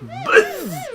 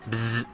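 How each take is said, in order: First: It is said in a normal voice. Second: It is said in a robotic voice.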